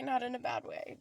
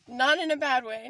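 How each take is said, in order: First: Said in the usual way. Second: Louder, higher "not in a bad way"; emphatic. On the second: Real, not acted. Reassuring viewers about the money bag, loud and emphatic.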